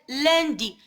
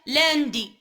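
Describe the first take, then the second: First: The first vowel is full and rounded. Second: The first vowel is thin and spread. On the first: The speaker calls it right. "كنطقوها غليظه" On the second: The speaker calls it wrong. "ماشي هي"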